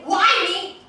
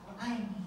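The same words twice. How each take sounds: First: It is said harshly and angrily. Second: It is said softly and gently. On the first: "If you say it really angrily" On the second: "if you say it gently"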